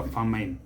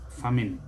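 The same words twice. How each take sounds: First: Famine as fa-MINE; mispronunciation. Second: Famine as FAM-in; correct pronunciation. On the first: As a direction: rhyme the end of famine with "mine". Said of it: "never famine". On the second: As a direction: end famine with a short "in". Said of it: "Just like we say". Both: Shown as a demonstration.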